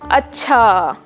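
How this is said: The word is stretched out slowly. "Drawn out"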